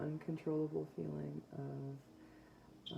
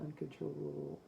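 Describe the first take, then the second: First: "uncontrollable" stretched out slowly; slow emphasis. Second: Said in the usual way. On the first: Shown as a demonstration. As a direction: drag out "uncontrollable" syllable by syllable. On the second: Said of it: "uh, uncontrollable feeling of".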